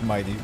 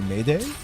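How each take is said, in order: First: The first vowel sounds like 'eye'. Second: The first vowel sounds like 'ay'. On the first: The speaker calls it right. "That's how you pronounce it" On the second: The speaker calls it wrong. "Every time I just see it spelled like that, I'm just like"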